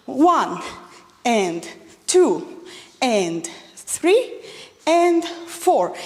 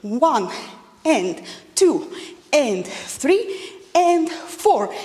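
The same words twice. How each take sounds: First: Counting beats for a wrong demo. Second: Slow, drawn-out counts; slow, even beat counts; counting the right way. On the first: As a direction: count through the faulty version. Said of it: "not going to make any preparations". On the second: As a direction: count the correct version slowly. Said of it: "follow this rule". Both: Shown as a demonstration.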